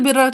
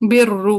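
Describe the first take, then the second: First: The word ends with an 'a' vowel. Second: The word ends with a 'u' vowel. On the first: This is the reading with nasb. "नस्ब रॉ यानी रॉ पे क्या आ जाएगी? ... फतहा आ जाएगी, जबर आ जाएगी।" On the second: This is the reading with raf. "रफा का क्या मतलब ... पेश के साथ।"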